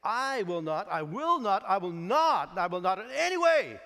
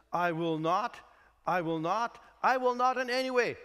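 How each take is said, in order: First: "I will not" hit harder each time, stressing I, then will, then not; emphatic repetition. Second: "I will not" twice with a lift, then "in any way" higher and louder; repeated emphasis. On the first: Shown as a demonstration. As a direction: build "I will not" to a loud, high "in any way". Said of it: "it is so emphatic that you want to say it". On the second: Retold or imitated. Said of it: "That's actually to emphasize the fact".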